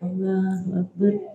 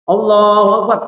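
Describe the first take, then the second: First: It is said quietly. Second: It is said loudly.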